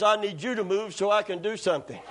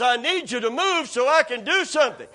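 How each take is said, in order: First: Said in the usual way. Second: Raised, more forceful demand; insistent demand. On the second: Retold or imitated. God arguing back in the retold standoff, insistent demand. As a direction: press the demand harder.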